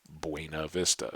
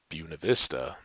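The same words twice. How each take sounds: First: It is pronounced with Spanish sounds. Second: It is pronounced with local English sounds. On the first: It is the original Spanish phrase. "even though it is Spanish" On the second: It is how locals say the town name. "they will tell you that's how you pronounce it"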